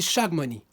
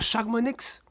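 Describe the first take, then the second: First: The word ends without any x sound. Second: The word ends with an audible x sound. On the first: The speaker calls it right. "on dit" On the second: The speaker calls it wrong. "on dit pas"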